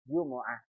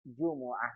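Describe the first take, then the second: First: The word is said with three syllables. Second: The word is said with three syllables.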